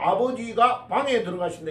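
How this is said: The break comes after 가, before 방.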